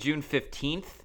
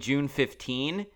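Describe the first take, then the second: First: Fifteenth ends with a clear TH sound. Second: Fifteenth ends without any TH sound. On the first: "Instead of saying June 15th" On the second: "there was no TH at the end of it"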